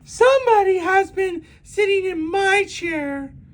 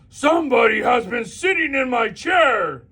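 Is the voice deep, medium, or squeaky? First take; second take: medium; deep. First: It is said in a medium-sized voice. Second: It is bellowed in a great big deep voice.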